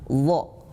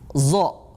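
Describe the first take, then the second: First: It begins with a heavy emphatic dh sound. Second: It begins with a plain z sound. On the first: The speaker calls it right. "Yang betul adalah wo" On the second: The speaker calls it wrong. "kita mengucapkannya dengan huruf zai"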